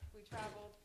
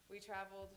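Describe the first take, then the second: No difference in how they are said.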